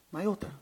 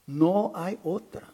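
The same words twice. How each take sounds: First: Soft insistence. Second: Slow emphatic repeat. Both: Real, not acted.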